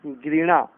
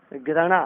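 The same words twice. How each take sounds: First: घृणा said as "ghrinaa"; correct "ri" sound. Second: घृणा said as "ghranaa"; wrong "ra" sound. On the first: Teacher correcting it, घृणा with ri. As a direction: use a clear "ri" in घृणा. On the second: Teacher showing the error, घृणा with ra for ri. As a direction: use "ra" in घृणा. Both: Shown as a demonstration. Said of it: "घृणा नहीं".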